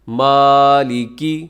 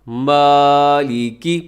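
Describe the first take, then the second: No difference in how they are said.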